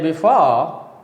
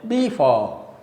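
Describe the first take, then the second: First: The stress is on the second syllable. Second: The stress is on the first syllable. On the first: The speaker calls it right. "when you say before is correct" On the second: The speaker calls it wrong. "when you stress the first syllable and unstress the second syllable, it is a wrong pronunciation"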